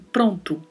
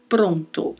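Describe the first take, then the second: First: The vowels sound like Brazilian Portuguese. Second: Both o vowels are clear and closed. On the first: The speaker calls it wrong. "não pronto, como falamos comumente no português" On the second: The speaker calls it right. "A pronúncia dos dois os são bem fechadas, falamos pronto"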